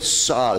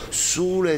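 First: The first vowel is a more open o. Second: The first vowel is closed, sounding like u. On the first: This is the corrected pronunciation. The speaker calls it right. "adesso da sule apri appena appena" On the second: This is the old regional habit. The speaker calls it wrong. "io facevo sule"

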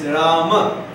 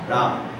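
First: The word ends with a final vowel sound. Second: The word ends on a consonant, no final vowel. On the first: This is the Sanskrit form. "In Sanskrit, it's Rama" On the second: This is the Hindi form. "In Hindi, it's Ram"

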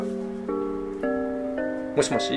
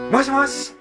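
First: The voice is hoarse, weak and fading. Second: The voice is loud, lively and energetic. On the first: "かすれて消え入りそうな声でしたが" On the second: "元気はつらつな声でしたが"

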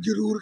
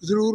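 First: The word is pronounced in a careless nonstandard way. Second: The word is pronounced in the careful standard way. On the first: The speaker calls it wrong. "ਕੁਝ ਲੋਕ ਲਫਜ਼ ਸ਼ੁੱਧ ਨਹੀਂ ਬੋਲਦੇ" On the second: The speaker calls it right. "ਲਫਜ਼ ਸ਼ੁੱਧ ਨਹੀਂ ਬੋਲਦੇ"

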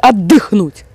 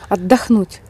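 First: The second syllable has a 'y' vowel. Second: The second syllable has an 'o' vowel. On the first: The speaker calls it wrong. "Не отдыхнуть" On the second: The speaker calls it right.

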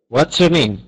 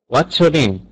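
Both takes have the same delivery.

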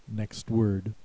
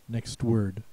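No difference in how they are said.

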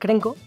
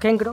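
First: The r sound comes in the first syllable. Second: The r sound comes in the last syllable. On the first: The speaker calls it right. "que es Krenko" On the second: The speaker calls it wrong. "que no es Kenkro"

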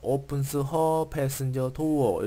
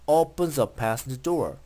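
First: The words are said separately, with the h sound. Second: The words run together like one word. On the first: The speaker calls it wrong. "이런 식으로 읽지 않고" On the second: The speaker calls it right. "모조리 연결해서 한 단어처럼"

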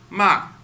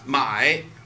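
First: The syllable falls sharply from high pitch. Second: The syllable dips low in pitch. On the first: It means to sell. "when we speak it in the fourth tone" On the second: It means to buy. "just my buy something"

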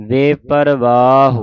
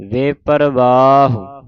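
The two takes are said the same way.

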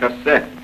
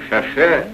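First: The middle consonant is an s sound. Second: The middle consonant is an sh sound. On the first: The speaker calls it right. "а шоссе" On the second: The speaker calls it wrong. "Плохо говоришь. Не шоше"

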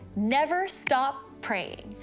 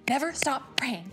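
First: It is said at a normal speed. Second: It is said very fast.

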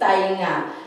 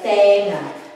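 First: The first syllable has an 'eye' vowel sound. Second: The first syllable has a plain 'eh' vowel. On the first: This is the formal form of the word. "This is the original or formal spelling of ears" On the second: This is the everyday spoken form of the word. "when we pronounce it, ... It's like tenga"

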